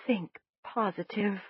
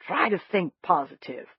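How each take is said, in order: First: Mumbling through a mouthful of food; words round a bite of cornbread, mouth full. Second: Said in the usual way. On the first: A narrator's reading. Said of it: "I mumbled around a mouthful".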